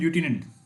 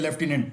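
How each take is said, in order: First: The first syllable sounds like 'loo'. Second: The first syllable sounds like 'lef'. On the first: "इसका जो correct pronunciation है" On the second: "आम भाषा में इसको जैसे हम यूजुअली बोलते रहते हैं"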